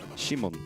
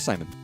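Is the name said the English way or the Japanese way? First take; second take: Japanese; English. First: The name is said with Japanese pronunciation. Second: The name is said with English pronunciation. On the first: The name is read as a Japanese word. "it's pronounced Shimon. Because it's in Japanese" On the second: The name is read as the English name. "Pronounce it as Simon. Because it, it's probably meant to be the English name"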